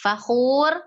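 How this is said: The first word ends, then a stop follows. The reading pauses at the verse boundary. "kalau kita bacanya waqaf, maka uh, dikembalikan kepada hukum awalnya"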